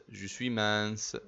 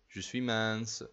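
No difference in how they are said.

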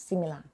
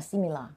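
No difference in how they are said.

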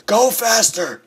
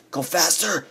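First: High, loud yell to speed up; urgent shout. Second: Higher, strained urging at normal volume; urgent urging. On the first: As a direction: shout it in a rush of panic. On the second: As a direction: urge it on, pitched up. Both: Real, not acted. Urging himself on while fleeing.

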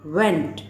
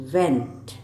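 First: वेंट from the throat, mouth fully open; वेंट, open wide and push from the throat. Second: वेंट low and soft, falling away; वेंट said low and quiet, lips forward; teacher demo of वेंट. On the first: Teacher showing how to say went from the throat. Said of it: "इसको आपको गले से pronounce करना है, full, पूरा out खोलकर". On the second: Teacher contrasting the other वेंट, low and soft. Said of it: "और ये होता है". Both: Shown as a demonstration.

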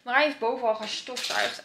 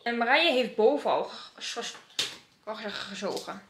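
First: Gestofzuigd said in full, louder; corrected. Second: Gestofzuigd fumbled as ge- ges- gezogen; tripping over gestofzuigd; stumbling. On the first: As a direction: clean retake with gestofzuigd. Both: Real, not acted. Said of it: "Dit gaat echt niet goed".

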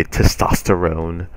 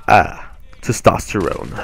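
First: Slow, put-on macho Testosterone; mock manly voice. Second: Slow, put-on macho drawl of testosterone; mock manly voice. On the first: Vlogger repeats the joke word to viewers, slow mock macho delivery. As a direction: drag out Testosterone as a joking macho punchline. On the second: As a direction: say testosterone like a parody of a tough guy.

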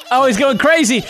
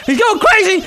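First: High-pitched amazed commentary; excited. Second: Very high, near-shrieking commentary; wildly excited. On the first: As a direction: call it out with rising excitement. Watching character launch in game. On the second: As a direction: yell it at peak excitement. Repeats it as action escalates. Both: Real, not acted.

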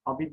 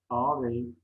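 First: "Abi" shortened to two syllables; clipped everyday "Abi"; colloquial form. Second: Said in the usual way. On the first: Shown as a demonstration. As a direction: say ağabey as "Abi". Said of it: "yanlış yazılmış olan sözcüklerin". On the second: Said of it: "doğrularını yazalım".

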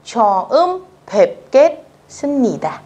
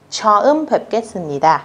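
First: 처음 뵙겠습니다 slow, syllable by syllable, higher; slow careful reading. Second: 처음 뵙겠습니다 said fast and smooth; natural speed. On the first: Teacher modelling 처음 뵙겠습니다 slowly first. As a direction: spell out 처음 뵙겠습니다 for beginners. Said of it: "các bạn chú ý nhá". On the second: Teacher showing natural-speed 처음 뵙겠습니다. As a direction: run 처음 뵙겠습니다 together naturally. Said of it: "để cho câu này nó tự nhiên". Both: Shown as a demonstration.

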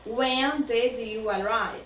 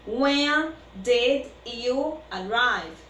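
First: Said in the usual way. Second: Slow, careful model. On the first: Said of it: "repeat at usual pace". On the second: Shown as a demonstration. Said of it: "teacher models sentence slowly".

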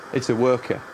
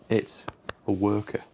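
First: Said in the usual way. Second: Spaced out, with a pause after IT'S; measured, broken-up repeat; deliberate repeat. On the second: Acted. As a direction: repeat it word by word, breaking before A WORKER. Repeats after "What was that?.

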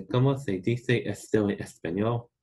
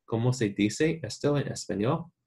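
First: ¿Cómo se dice esto en español? with "se" and "dice" lisped as th; Castilian th in "se dice", Spain style; Spain Spanish accent. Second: ¿Cómo se dice esto en español? with seseo, "se" and "dice" with s sounds; Latin American Spanish. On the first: Teacher demos the Spain option for students, Castilian Spanish accent. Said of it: "if you wanna do the Spain accent". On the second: Students asked to record it, Latin American Spanish accent. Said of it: "Or if you wanna do the Spain accent". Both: Shown as a demonstration.

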